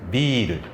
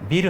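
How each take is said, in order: First: The first vowel is held long. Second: The first vowel is short. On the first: It means beer. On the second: It means building.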